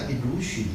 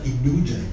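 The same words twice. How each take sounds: First: The ending is said like a voiceless 'shun'. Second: The ending is said like a voiced 'zhun'. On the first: The speaker calls it wrong. "你们叫illusion 啊" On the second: The speaker calls it right. "美国叫做illusion。发音不一样"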